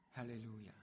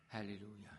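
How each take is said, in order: Both takes have the same delivery.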